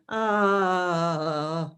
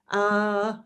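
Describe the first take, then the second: First: Long "ah" sliding steadily down in pitch; descending "ah" exercise. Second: High, sustained "ah" held level; voice exercise "ah". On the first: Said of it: "and then I'll start down there". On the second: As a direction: hold a steady raised note on "ah", like a vocal warm-up. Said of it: "he had me doing all these exercises". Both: Shown as a demonstration.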